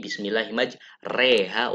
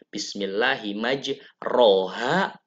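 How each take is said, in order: First: The vowel after r leans toward e. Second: The vowel after r is an open a. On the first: "fathah dicondongkan ke bunyi kas kasroh" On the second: "yang tadinya eh, fathah"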